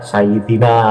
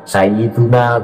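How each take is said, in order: First: The vowel after "Sayyid" is an i sound. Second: The vowel after "Sayyid" is a u sound. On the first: The speaker calls it wrong. "tidak pas ketika dibaca Sayyidina" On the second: The speaker calls it right. "harus dibaca Sayyiduna karena menjadi mubtada"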